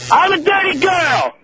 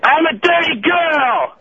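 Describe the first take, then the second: First: Slow high shout; yelling. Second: Slow high drawn-out shout; yelling. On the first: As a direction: yell it out across the room. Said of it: "really yell very loud for me". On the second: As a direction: bellow it once more. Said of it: "One more time". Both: Pretend.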